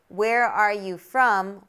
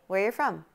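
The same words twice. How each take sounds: First: The words are said separately, each one distinct. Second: The words are linked together like one word. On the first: The speaker calls it wrong. "We don't say" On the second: The speaker calls it right. "We say, ... That almost sounds like a standalone word"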